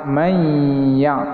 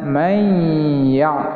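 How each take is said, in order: No difference in how they are said.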